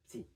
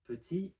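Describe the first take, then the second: First: The vowel after the p is dropped. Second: The vowel after the p is pronounced.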